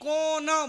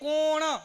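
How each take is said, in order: First: The final n is dental, tongue at the teeth. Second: The final n is retroflex, tongue curled back. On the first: "એ કોણ બોલે ... એ અણાની જગ્યાએ ન લગાડે" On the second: "આપણે બોલીએ"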